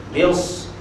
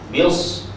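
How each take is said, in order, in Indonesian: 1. Bunyi s itu tebal dan bertekanan. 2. Bunyi s itu tebal dan bertekanan.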